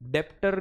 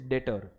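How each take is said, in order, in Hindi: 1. t से पहले b या p की आवाज़ सुनाई देती है। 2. t से पहले b की कोई आवाज़ सुनाई नहीं देती। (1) "डेप्टर नहीं है" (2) "बी इज साइलेंट"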